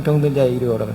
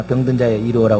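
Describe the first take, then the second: First: Said in the usual way. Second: Lightly voiced junk dealer hawking in a singsong; junk dealer's call. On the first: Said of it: "이거 교회에서는". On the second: Pastor mimics a junk dealer's cry as a joke. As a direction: call it out like a street junk collector, half-hearted. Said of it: "고물상에서나".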